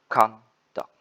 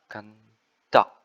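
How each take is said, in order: First: The stress is on the first syllable. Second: The stress is on the second syllable. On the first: It is used as a noun. "conduct as a noun, the stress at the first syllable" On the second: It is used as a verb. "conduct as a verb, the stress is at second syllable"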